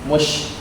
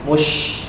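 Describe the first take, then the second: The two takes are said the same way.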